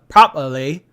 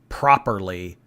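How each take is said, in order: First: It is said in a mock British accent. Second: It is said in a plain American accent.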